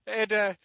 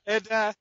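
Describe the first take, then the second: No difference in how they are said.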